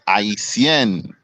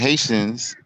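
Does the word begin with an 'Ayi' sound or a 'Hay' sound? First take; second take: Ayi; Hay. First: The word begins with an 'Ayi' sound. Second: The word begins with a 'Hay' sound. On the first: The speaker calls it right. "we say Haitien" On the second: The speaker calls it wrong. "instead of saying Haitians"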